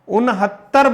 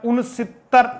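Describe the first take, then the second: First: The word ends in 'hattar'. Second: The word ends in 'sitar'. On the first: The speaker calls it right. "उनहत्तर बोलना है" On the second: The speaker calls it wrong. "यहां कई बार उनसितर ऐसा बोल देते हैं"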